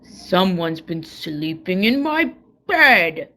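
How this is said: It is said with a great big growl.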